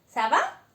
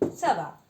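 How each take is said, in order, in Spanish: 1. El tono sube al final, como en una pregunta. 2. El tono baja al final, como en una afirmación. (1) "según el tono que ponemos, significa una u otra cosa... quiere decir, ¿estás bien?" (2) "como respuesta, se puede decir, ça va, estoy bien"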